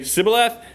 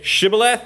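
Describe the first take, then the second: First: The word begins with a plain s sound. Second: The word begins with an sh sound. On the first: This is how the other group says it. "They can't pronounce the sh sound" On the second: This is how one group says it. "I say Shibboleth"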